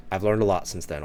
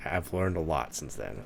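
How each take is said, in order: First: Said in the usual way. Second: Quieter, slower repeat with weight on "learned"; pointed repeat. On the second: Shown as a demonstration. Telling listeners he has grown, softly stressing "learned". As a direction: lean on "learned", softer and slow, so it sinks in. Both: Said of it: "repeats the line".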